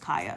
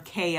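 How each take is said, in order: First: The first vowel sounds like 'eye'. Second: The first vowel sounds like 'ay'. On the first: The speaker calls it right. "no, my name is Kaya" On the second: The speaker calls it wrong. "when people call her Kaya"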